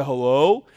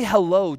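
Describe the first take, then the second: First: Hello said lower with a rising end; friend's hello. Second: Said in the usual way. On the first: Retold or imitated. Pastor copying his college friend Kevin's greeting, low rising Hello. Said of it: "I say hello just like him". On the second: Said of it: "I don't talk like that".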